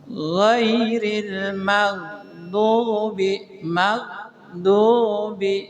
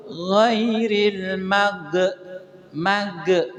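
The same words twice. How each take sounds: First: "Ghairil maghdubi" chanted very slowly, the gh smooth with no bounce; correct Quran chant. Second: "Ghairil mag-" chanted slowly with the gh bounced like a qalqalah letter; wrong bounced gh. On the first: Teacher chants the correct recitation for the students. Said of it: "karena ini bukan huruf kokolah". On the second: Teacher chants the wrong bounced reading of maghdubi. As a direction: bounce the gh, the mistake to avoid. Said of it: "Nah, jangan sampai di mag". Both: Shown as a demonstration.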